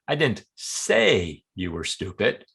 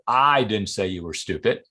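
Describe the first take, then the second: First: The stress falls on the word say. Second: The stress falls on the word I. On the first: It was conveyed another way, not spoken. "Maybe I wrote it in an email or implied" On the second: Someone else said it. "Maybe I heard somebody else say it"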